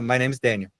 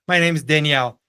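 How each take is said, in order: First: The name is said the English way. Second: The name is said the Brazilian Portuguese way. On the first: The name sounds masculine to English speakers. The speaker calls it right. "eu me apresento para alguém e falo" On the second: The name sounds feminine to English speakers. The speaker calls it wrong. "Eu não posso chegar para alguém e falar assim"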